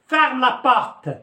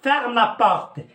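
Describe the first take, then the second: First: It is said forcefully, as a sharp command. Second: The same.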